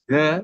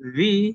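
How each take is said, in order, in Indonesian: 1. Vokalnya adalah bunyi 'uh' yang pendek dan lemah. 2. Vokalnya adalah bunyi 'ee' yang panjang. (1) "The diawali oleh huruf konsonan" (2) "The jika diawali oleh huruf vokal"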